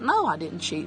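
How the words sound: It sounds relaxed, casual and warm. The speaker is telling the truth. The speaker calls it right. "you'd sound like that"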